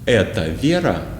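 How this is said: It is said with question intonation. The speaker is asking whether this is Vera. "you have to show with the intonation that this is the question. For example, like this"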